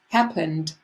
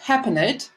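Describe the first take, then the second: First: The ending is a plain d sound. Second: The ending is not a plain d sound. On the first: The speaker calls it right. "it's happened" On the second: The speaker calls it wrong. "It's not happened, some, as some of you say"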